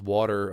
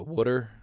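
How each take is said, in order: First: It is said in a general American accent. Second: It is said in a Baltimore accent.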